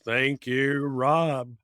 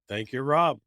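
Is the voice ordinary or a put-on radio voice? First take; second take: radio voice; ordinary. First: It is said in a put-on radio announcer voice. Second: It is said in an ordinary speaking voice.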